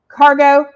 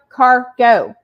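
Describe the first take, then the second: First: It is said smoothly as one word. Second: There is a pause between its two halves. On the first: Goods carried on a ship. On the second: A car moving along.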